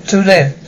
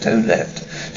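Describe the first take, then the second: First: Said in the usual way. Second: A stunned repeat under the breath; hushed whisper. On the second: Acted. Repeats count, shocked and hushed.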